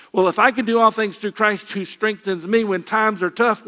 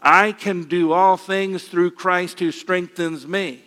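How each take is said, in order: First: Said in the usual way. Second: Slow, measured group recitation of the verse; recited together. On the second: Shown as a demonstration. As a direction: lead the congregation through the verse slowly, word by word. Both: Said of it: "Let's say it together".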